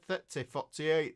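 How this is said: It is said in a Yorkshire accent.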